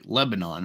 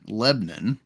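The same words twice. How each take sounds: First: The name is said in the standard way. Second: The name is said in the local way. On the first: "They have towns like" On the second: "they'll be like"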